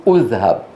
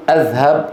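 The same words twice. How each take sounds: First: أذهب started with u, "uzhab"; wrong opening vowel. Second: أذهب started with a, "azhab"; wrong opening vowel. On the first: Teacher showing what we do not say, with damma. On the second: Teacher showing what we do not say, with fatha. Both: Shown as a demonstration. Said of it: "ولا نقول".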